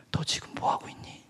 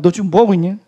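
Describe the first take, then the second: First: Whispered, as God's voice; a soft divine whisper; God's quiet question. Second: Louder indignant echo of the question; loud, outraged retelling; indignant repeat. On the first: Acted. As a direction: whisper the question gently from above. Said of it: "주님이 한 말씀 하셨어요". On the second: Retold or imitated. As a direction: throw the question back, offended. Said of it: "그러니까 물어보는 거 아니에요".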